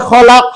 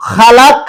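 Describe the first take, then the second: First: "খলাক" with a short ও after খ; correct Arabic pronunciation. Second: "খালাক" with a long আ after খ; wrong reading from the book. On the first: Teacher giving the right Arabic "খলাক" with a short first vowel. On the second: Teacher reading the book's mistaken "খালাক" with a long আ. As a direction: read "খালাক" as the faulty book spells it, long আ. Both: Shown as a demonstration. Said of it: "এখানে হবে খলাক".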